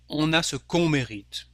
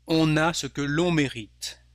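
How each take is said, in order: First: No L sound comes before on. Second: An L sound links que to on. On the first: "Instead of" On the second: "it sounds better with the L apostrophe here"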